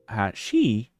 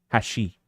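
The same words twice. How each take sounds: First: The pitch rises across the word. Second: The pitch falls across the word. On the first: It means chopsticks. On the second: It means bridge.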